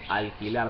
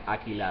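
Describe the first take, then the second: First: The L is pronounced clearly, not velarized. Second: The L is dropped completely from the word. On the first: The speaker calls it right. "something like alquilar" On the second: The speaker calls it wrong. "just drop the L completely"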